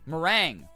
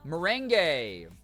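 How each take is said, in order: First: The word is said with two syllables. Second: The word is said with three syllables. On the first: The speaker calls it right. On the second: The speaker calls it wrong.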